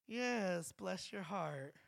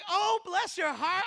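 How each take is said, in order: First: It sounds disappointed and sarcastic. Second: It sounds warm, grateful and sincere.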